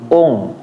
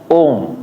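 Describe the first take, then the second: The two takes are said the same way.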